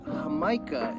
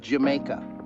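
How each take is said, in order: First: The word begins with a breathy H sound. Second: The word begins with an English J sound. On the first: This is how the word is actually said. "is how it's pronounced" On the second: This is how the word is written. "but it's spelled Jamaica"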